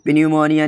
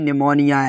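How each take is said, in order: First: A p sound is pronounced at the start. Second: It begins directly with an n sound. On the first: The speaker calls it wrong. "तो पिन्यूमोनिया नहीं होता" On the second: The speaker calls it right. "ये निमोनिया है"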